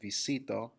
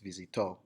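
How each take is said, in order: First: The stress falls before the final syllable. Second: The stress falls on the final syllable. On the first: The speaker calls it wrong. "it's not visito" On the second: The speaker calls it right. "with the emphasis on the end where the accent is"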